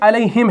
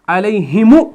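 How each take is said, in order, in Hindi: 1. शब्द एक खाली म की आवाज़ पर खत्म होता है। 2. शब्द एक जोड़े गए उ स्वर पर खत्म होता है। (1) "यहां पर ये आपका मीम साकिन ही रहा" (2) "ये हमने नहीं पढ़ा"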